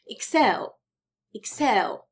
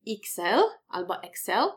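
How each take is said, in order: First: „Excel” as ik-SEL, slow and stressed on SEL; akcent na drugą sylabę. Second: „Excel” stressed on the first syllable, IK-sel or EK-sel; błędny akcent na początku. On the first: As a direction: land firmly on the end of „Excel”. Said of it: "akcentujemy drugą sylabę". („Excel” z akcentem na SEL) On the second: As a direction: wrongly punch the start of „Excel”. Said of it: "akcentujemy drugą sylabę, a nie pierwszą". („Excel” z akcentem na pierwszą sylabę) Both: Shown as a demonstration.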